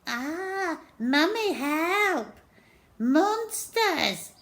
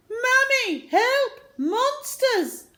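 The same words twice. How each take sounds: First: High, loud teasing copy of a scared cry; mock his brother's panic; mocking mimic. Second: High, loud terrified yell for help; a scared boy running for mum; panicked cry. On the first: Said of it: "mimicked Henry". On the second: Acted. Steve fleeing in terror.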